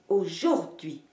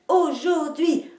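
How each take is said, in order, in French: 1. La syllabe du milieu est accentuée. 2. La syllabe du milieu n'est pas accentuée. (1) "vous ne marquerez jamais l'accent sur la syllabe du milieu, ce qui donnerait" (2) "en marquant les deux places de l'accentuation"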